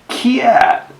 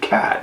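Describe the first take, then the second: First: It is said in a Detroit accent. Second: It is said in a standard accent.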